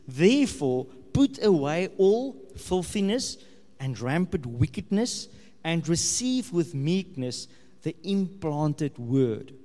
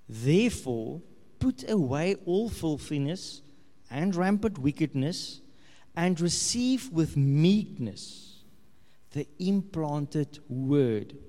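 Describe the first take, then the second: First: It is read at an ordinary, quicker pace. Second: It is read slowly and deliberately.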